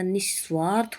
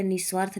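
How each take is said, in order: First: निस्वार्थ with sh held before s; correct pronunciation. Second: निस्वार्थ with a single s; wrong pronunciation. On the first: Teacher correcting the word, निस्वार्थ as nish-svaarth. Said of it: "होता है". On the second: Teacher showing the error, निस्वार्थ with single s. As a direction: say निस्वार्थ as nis-vaarth. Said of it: "नहीं होता". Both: Shown as a demonstration.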